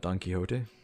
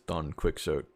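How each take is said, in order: First: The name is said the traditional way. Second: The name is read out as spelled. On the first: The speaker calls it right. "the first and only time someone ever pronounced this name right" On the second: The speaker calls it wrong. "people who don't know how to read it who read it as Don Quixote"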